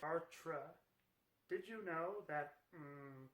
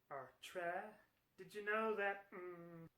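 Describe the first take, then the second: First: It is a weaker put-on female voice. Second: It is a stronger put-on female voice.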